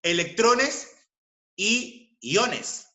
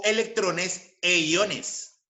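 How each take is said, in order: First: Higher, "y" set apart after a pause; "y" form. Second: Slow, with "e" as "eh" before "iones"; "e" form. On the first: Teacher showing the first valid form, "y" stressed before "iones". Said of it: "expresar de esta manera". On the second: Teacher showing the alternative valid form, slow "e" before "iones". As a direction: draw out "e iones" deliberately. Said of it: "se admiten ambas formas". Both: Shown as a demonstration.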